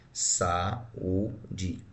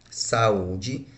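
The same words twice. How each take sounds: First: "Saúde" pulled apart slowly into sa-ú-de, softer; dividing "Saúde" into sa-ú-de, unhurried and soft; syllable by syllable. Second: Said in the usual way. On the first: Shown as a demonstration. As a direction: split "Saúde" into its syllables for the class. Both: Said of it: "Como é que eu separo a palavra saúde?".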